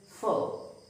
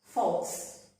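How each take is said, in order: First: "faux" with silent X, like foe; correct pronunciation. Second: "false" as faux misread with the X sounded as S; wrong pronunciation. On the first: Teacher showing learners the French word, "faux" said as foe. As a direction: say "faux" as foe, open ending. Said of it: "but it is faux". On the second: Teacher showing learners the mistake, "false" with a sounded ending. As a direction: end "false" on an audible S sound. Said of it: "It is not". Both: Shown as a demonstration.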